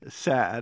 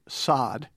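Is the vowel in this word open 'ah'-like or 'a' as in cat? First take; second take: cat-like; ah-like. First: The vowel is a front 'a' as in cat. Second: The vowel is an open, back 'ah' sound. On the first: "The word is sad" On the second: "as we Americans pronounce it"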